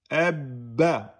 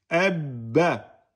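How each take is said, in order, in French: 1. Le b est tenu avant le relâchement. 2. Le b est tenu avant le relâchement.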